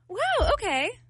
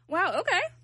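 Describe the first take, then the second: First: It sounds warm and supportive. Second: It sounds mocking and sarcastic.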